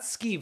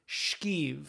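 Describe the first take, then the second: First: The word begins with a plain s sound. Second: The word begins with a sh sound. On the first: The speaker calls it wrong. "It's not skeev" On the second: The speaker calls it right. "you're missing an H"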